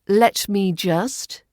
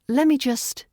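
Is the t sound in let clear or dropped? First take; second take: clear; dropped. First: The t sound in let is clear. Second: The t sound in let is dropped.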